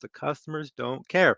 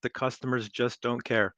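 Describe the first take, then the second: First: It is said louder. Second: It is said at normal volume.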